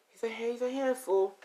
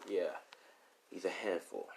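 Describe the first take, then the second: First: High-pitched, chatty exasperation; chatty mother. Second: Said in the usual way. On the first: Acted. Mother telling a friend about Zeus, high chatty voice. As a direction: tell a friend in a raised voice.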